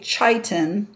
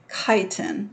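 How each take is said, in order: First: The word begins with a ch sound. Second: The word begins with a hard k sound. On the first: The speaker calls it wrong. "you would not say" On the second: The speaker calls it right. "C H always has a hard K sound"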